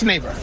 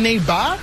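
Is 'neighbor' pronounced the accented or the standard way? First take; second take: standard; accented. First: The word is pronounced in a standard way. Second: The word is pronounced in an accented way. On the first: This is how it should be. The speaker calls it right. "It's neighbor" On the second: This is how it was heard. The speaker calls it wrong. "I'm hearing neighbor"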